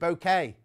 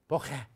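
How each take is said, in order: First: The middle consonant is a k sound. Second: The middle consonant is a ch sound. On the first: "Or is it bouquet?" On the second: "Is it definitely ch in the middle?"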